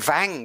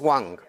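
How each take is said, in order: First: The name begins with a V sound. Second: The name begins with a W sound. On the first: The speaker calls it wrong. "I'm pronouncing the W's as V" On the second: The speaker calls it right. "It's Wang"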